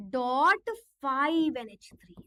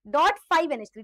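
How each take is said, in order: First: Drawn out, each symbol spaced; stretched dictation of the formula; slow dictation. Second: Louder, punchy restatement at normal speed; quick emphatic repeat; firm repeat. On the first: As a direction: dictate slowly for copying. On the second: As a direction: say it again briskly and firmly. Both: Shown as a demonstration. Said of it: "CO C L three".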